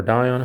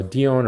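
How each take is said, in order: First: Dion said as DIE-on; first syllable of Dion rhymes with "sky"; alternative pronunciation. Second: Dion said as DEE-on; first syllable of Dion rhymes with "see"; alternative pronunciation. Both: Shown as a demonstration. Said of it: "however you pronounce that".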